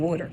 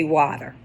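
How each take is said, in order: First: "water" with a rounded aw vowel, waw-ter; East Coast pronunciation. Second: "water" with an open ah vowel, wah-ter; local pronunciation. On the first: Insisting on her East Coast way: "water" as waw-ter. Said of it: "I'm saying water 'cause that's what it is". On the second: Telling viewers how locals say it: "water" as wah-ter. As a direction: say "water" the way people over here say it, wah-ter. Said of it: "People over here say water". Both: Shown as a demonstration.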